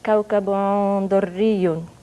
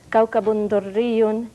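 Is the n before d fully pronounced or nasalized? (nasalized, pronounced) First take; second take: nasalized; pronounced. First: The n is reduced and the syllable sounds nasal. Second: The n before d is clearly pronounced. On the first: This is the recited form of scripture. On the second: This is the ordinary literary reading.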